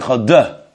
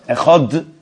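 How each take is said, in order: First: The final d is followed by an extra vowel. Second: The final d ends cleanly with no added vowel. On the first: The speaker calls it wrong. "as opposed to echad de, makes a big difference" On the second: The speaker calls it right. "Just make sure you pronounce it properly, but don't overdo it"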